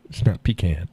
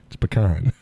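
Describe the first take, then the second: First: "pecan" as PEE-can; wrong pronunciation. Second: "pecan" as puh-KAHN; correct pronunciation. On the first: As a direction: hit PEE in "pecan", then a short can as in tin can. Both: Shown as a demonstration.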